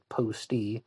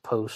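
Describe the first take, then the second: First: The name ends with an extra vowel sound. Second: The name ends on the consonant t. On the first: "Some people are pronouncing it Posty" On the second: "I've also heard it pronounced Post"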